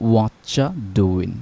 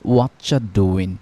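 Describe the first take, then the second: First: The words run together quickly as 'whatcha doin'. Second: The same.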